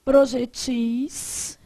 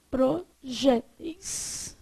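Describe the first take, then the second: First: "Projetis" very slow, stressed on the last syllable -TIS; stress on final syllable. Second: "projéteis" very slow, syllable by syllable, stressed on JÉ; stress on middle syllable. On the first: Teacher showing the plural to the class, final-syllable stress. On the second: Teacher showing the plural to the class, middle-syllable stress. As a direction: break up "projéteis" with a strong open JÉ. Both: Shown as a demonstration. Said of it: "Aí o plural".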